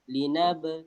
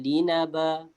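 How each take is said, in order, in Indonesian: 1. Kata itu berakhir dengan b pendek yang memantul. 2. Kata itu berakhir dengan vokal penuh setelah b.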